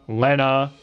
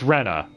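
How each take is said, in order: First: The name starts with a Japanese-style R sound. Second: The name starts with an English R sound. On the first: The speaker calls it wrong. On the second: The speaker calls it right. "should be said as Rena in English"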